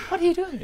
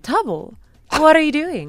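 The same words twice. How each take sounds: First: Squeaky high reporter imitation. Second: Lightly voiced news reporter; a hint of a reporter asking questions. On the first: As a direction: mimic the reporter voice, pitched way up. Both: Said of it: "I love this reporter voice".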